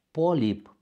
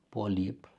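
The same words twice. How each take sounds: First: Polip stressed on PO, louder; first stress. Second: Polip stressed on LIP, softer; second stress. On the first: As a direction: say polip as PO-lip. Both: Shown as a demonstration. Teacher contrasting the two stresses of polip. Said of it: "Substantivele omografe".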